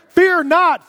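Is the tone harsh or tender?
harsh. It is said in a harsh, stern tone. The command feels threatening and makes the listener more afraid. The speaker calls it wrong. "And I just hear, fear not, fear not, fear not. And it makes me more afraid"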